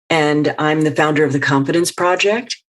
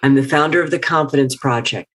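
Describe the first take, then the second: First: The voice rises at the end. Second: The voice falls at the end. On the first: The speaker sounds unsure, as if asking permission. The speaker calls it wrong. "her voice goes up" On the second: The speaker sounds confident and declarative. The speaker calls it right. "Step down the stairs and put a period"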